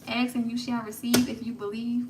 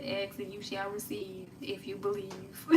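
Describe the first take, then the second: First: "receive" punched, line delivered like a rap bar; quoted as a bar. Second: Said in the usual way. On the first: Shown as a demonstration. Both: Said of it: "y'all hear the bars?".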